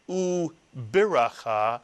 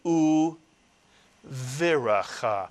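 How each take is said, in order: First: The consonant after the first vowel is b. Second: The consonant after the first vowel is v. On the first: The speaker calls it wrong. "the pronunciation of this word is not u biracha" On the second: The speaker calls it right. "but u viracha"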